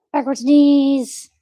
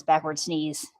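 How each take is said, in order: First: Higher, louder and slow; emphatic repeat. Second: Said in the usual way. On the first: Real, not acted. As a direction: stress the word sneeze. Repeating, loud and high.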